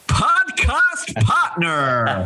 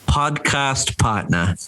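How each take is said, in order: First: It is said with strong enthusiasm. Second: It is said in a plain, flat way.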